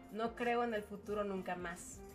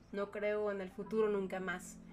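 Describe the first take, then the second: The two takes are said the same way.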